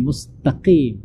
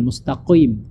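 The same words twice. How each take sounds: First: "mustaqim" with a clean "qim"; no glide in "mustaqim"; correct thinner qaf. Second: "mustaqim" as "mustaqo-im"; over-thick q in "mustaqim"; wrong heavy qaf. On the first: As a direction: say "mustaqim" going straight from q to i. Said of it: "dia dibaca agak tipis". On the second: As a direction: say "mustaqim" with a rounded glide after q. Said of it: "bukan mustaqim". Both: Shown as a demonstration.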